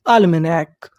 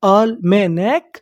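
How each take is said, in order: First: Said in the usual way. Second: Almanac slowly in separate syllables, rising at the end; slow breakdown of almanac. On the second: Shown as a demonstration. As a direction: sound out almanac, lifting the last part. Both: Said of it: "तो meaning क्या बनी".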